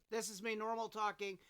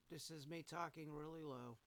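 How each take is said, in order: First: Said in the usual way. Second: Much softer, low mumble; talking really low. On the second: Shown as a demonstration. Replaying his quietest take for the compressor test, talking really low. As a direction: barely voice it.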